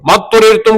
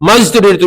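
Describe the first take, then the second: First: The first consonant is a heavy d-like sound. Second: The first consonant is a z sound. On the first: The speaker calls it right. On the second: The speaker calls it wrong.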